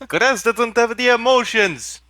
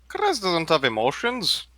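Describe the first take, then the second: First: It is said loudly. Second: It is said at normal volume.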